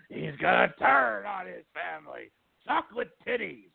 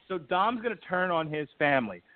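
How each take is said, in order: First: Hammed-up wrestling promoter impression; Vince McMahon voice. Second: Said in the usual way. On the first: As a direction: put on a promoter's voice, rising higher at the end. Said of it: "I don't know why I'm doing the Vince McMahon voice".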